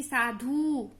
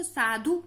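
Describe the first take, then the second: First: "साधु" with a drawn-out final oo; wrong long vowel. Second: "साधु" with a short final u; short vowel. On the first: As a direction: stretch the ending of "साधु". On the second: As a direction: keep the ending of "साधु" quick. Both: Shown as a demonstration. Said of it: "नहीं पढ़ते ना इसको".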